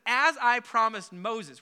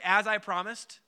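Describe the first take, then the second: First: Slow, weighted delivery of "As I promised"; stress on As I promised. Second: Said in the usual way. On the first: Shown as a demonstration. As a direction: lean on "As I promised" and draw it out. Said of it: "Would you just say, "As I promised"?". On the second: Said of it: "Would you just say".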